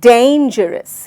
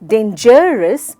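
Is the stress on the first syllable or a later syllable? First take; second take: first syllable; later syllable. First: The stress is on the first syllable. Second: The stress is on a later syllable. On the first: The speaker calls it right. "सही विधि है dangerous. सो मैंने डेन पे जोर दिया।" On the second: The speaker calls it wrong. "बिल्कुल भी नहीं।"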